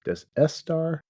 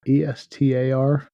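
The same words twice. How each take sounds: First: Said in the usual way. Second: Slow, letter by letter: E S T A R; slow spelling of E S T A R; spelled out letter by letter. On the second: Shown as a demonstration. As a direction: spell the name out slowly.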